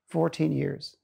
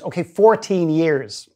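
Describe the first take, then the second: First: Said in the usual way. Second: Slow, louder repeat; louder on request. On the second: Retold or imitated. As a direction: say it again, louder and deliberate. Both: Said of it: "can you say it louder".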